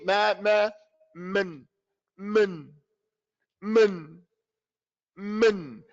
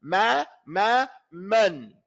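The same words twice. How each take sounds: First: "man" squashed to "mn", straight from meem to noon; no fatha. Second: "Ma, ma, man" evenly timed, mouth open; equal open fathas. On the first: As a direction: swallow the vowel in "man", repeating it. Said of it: "meme to the noon with no fatha". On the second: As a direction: give "man" the same open vowel as "Ma". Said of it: "the same length of time". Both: Shown as a demonstration.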